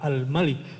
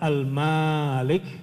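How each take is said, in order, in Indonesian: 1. Vokal setelah M pendek. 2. Vokal setelah M panjang. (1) "jadi pendek" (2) "kalau panjang"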